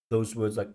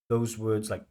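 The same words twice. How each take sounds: The two takes are said the same way.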